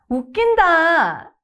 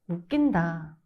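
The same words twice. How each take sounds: First: It is said in a sincere tone. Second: It is said in a sarcastic tone. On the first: "the sincere version" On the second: "then the sarcastic version"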